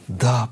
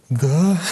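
First: The word is said with a confident falling tune. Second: The word is said with a half-questioning rising tune. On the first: The child is eager and sure. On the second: The child is hesitant and unsure.

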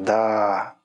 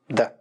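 First: The word is stretched out and drawn long. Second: The word is cut short, dry and abrupt. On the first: "Можно сказать с потягом, с таким" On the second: "А можно сказать отрывисто, сухо"

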